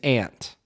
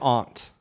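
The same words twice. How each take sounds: First: It is said with the Michigan vowel. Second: It is said with a softened, British-like vowel. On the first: "the Michigan way to say it is aunt" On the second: "another way that I've been softening"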